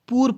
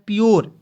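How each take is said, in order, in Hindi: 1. p के तुरंत बाद oo आता है, y नहीं। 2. p के बाद y ग्लाइड आती है। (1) "बहुत लोग पूरे पढ़ लेता है, पूर पढ़ लेता है, इस तरह नहीं पढ़ना है" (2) "पी यू आर ई को क्या पढ़ना है"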